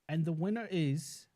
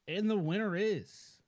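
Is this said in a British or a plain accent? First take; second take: British; plain. First: It is said in a British accent. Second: It is said in a plain accent.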